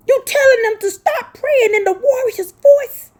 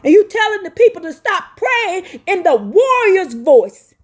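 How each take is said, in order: First: High, breathy whispered cry. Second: Said in the usual way. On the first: Real, not acted. Preacher repeating the charge to critics, now in a tearful whisper. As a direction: let the words break into a whispered sob. Repeats accusation, then cries it.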